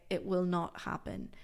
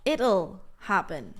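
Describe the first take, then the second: First: Said in the usual way. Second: Slow, clear "It'll" as one syllable; slow contraction. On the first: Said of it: "I will never say". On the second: Shown as a demonstration. Teacher demonstrating the contracted future to students. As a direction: draw out "It'll happen" to show the contraction. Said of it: "I like to contract will even more".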